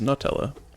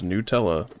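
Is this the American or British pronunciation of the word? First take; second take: British; American. First: The word is pronounced the British way. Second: The word is pronounced the American way. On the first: "U K and I guess others is Nutella" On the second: "the American pronunciation is Nutella"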